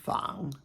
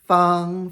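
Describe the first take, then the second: First: The pitch dips low and then rises. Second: The pitch stays high and level.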